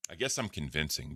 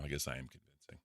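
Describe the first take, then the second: First: Said in the usual way. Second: Low, quiet, smooth Bigfoot voice; a hint of a smooth Bigfoot. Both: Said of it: "smooth Bigfoot voice".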